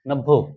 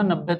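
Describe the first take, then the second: First: The word ends with an 'o' vowel. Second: The word ends with an 'e' vowel. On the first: "तो नब्बो बोलता था" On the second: "जब मैं बोलता था नब्बे"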